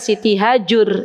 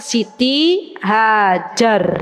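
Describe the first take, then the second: First: The last syllable is said with a 'u' vowel. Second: The last syllable is said with an 'a' vowel. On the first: This is how Arabs say the name. "padahal Siti Hajur" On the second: This is how Indonesians say the name. "kalau orang Indonesia Siti Hajar"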